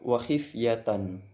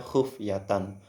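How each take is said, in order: First: The first vowel is an 'i' sound. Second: The first vowel is a 'u' sound. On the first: "dengan mengkasrokan huruf kha" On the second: "dengan dhamma pada huruf kha"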